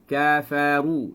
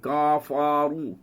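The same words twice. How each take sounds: First: The k is light, tongue relaxed and low. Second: The k is heavy, tongue tensed and raised. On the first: The speaker calls it right. "lidah kita biarkan di bawah" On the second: The speaker calls it wrong. "Kalau kafa, maksud kita dah kuatkan lidah tu"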